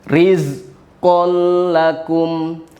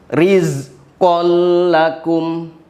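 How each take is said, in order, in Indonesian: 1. Bunyi L-nya tebal dan ditahan. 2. Bunyi L-nya tebal dan ditahan.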